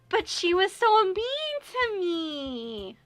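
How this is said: It is said in a whining voice.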